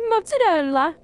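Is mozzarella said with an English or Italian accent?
Italian. The word is said with an Italian accent. The speaker calls it right. "As an authentic Italian, I have to say it like mozzarella"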